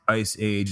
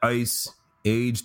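First: It is run together as one word. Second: It is said as two separate words. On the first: The speaker calls it right. "It's like one word" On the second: The speaker calls it wrong. "It's not Ice Age, two words"

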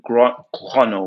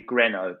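First: The name is pronounced with a French sound. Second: The name is pronounced with an English sound. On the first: It keeps the original pronunciation. The speaker calls it right. "Grano would be correct" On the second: It is adapted for English speakers. The speaker calls it wrong. "I would anglicise it and say Greno"

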